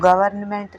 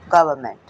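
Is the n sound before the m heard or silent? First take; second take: heard; silent. First: The n sound before the m is pronounced. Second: The n sound before the m is left out. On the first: The speaker calls it wrong. "इसको गवर्नमेंट नहीं पढ़ते" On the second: The speaker calls it right. "इसमें भी एन silent रहेगा"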